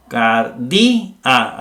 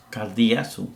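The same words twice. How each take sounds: First: "Cardi-a" drawn out syllable by syllable, gap between di and a; separado en sílabas. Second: Said in the usual way. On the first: Shown as a demonstration. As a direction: split "Cardi-a" slowly so i and a are two syllables. ("Cardi-a" silabeado despacio, con la i y la a separadas) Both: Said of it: "Aquí hay dos".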